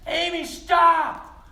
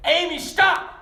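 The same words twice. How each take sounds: First: Long drawn-out shouted warning, high and loud; yell. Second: Sudden shouted warning, much higher and louder; yell. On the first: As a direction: stretch the shout out slowly to stop her. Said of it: "And he yelled". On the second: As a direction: shout her name to stop her dead. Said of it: "and he yelled". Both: Retold or imitated.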